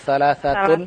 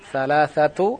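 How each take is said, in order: First: The word ends with a final n sound. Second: The word ends in a vowel, with no n. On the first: The speaker calls it right. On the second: The speaker calls it wrong. "Salasatu atau salasatun?"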